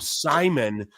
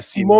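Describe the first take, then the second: First: The stress is on the first syllable. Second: The stress is on the second syllable. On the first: "When you when you accentuate the first syllable, it's just easier to say" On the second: "is definitely the correct pronunciation"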